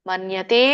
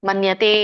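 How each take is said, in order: No difference in how they are said.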